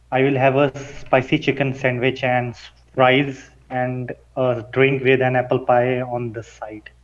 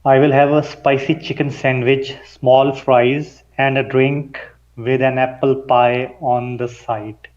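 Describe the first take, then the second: First: Quicker, more run-together delivery; a little faster. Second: Slow and deliberate, every vowel sounded out; careful enunciation. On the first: Student repeating the order faster at his coach's request. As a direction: rattle the order off at a brisker pace. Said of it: "say it a little bit faster for me". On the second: Student reading an order aloud for his coach, carefully enunciated. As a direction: pronounce each sound cleanly, unhurried. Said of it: "You enunciated". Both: Shown as a demonstration.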